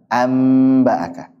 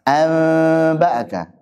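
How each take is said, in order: First: The n turns into a clear m sound. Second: The n is hidden as a nasal sound. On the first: The speaker calls it right. "Paling ringan mana?" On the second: The speaker calls it wrong. "dengan ikhfa juga enggak cocok"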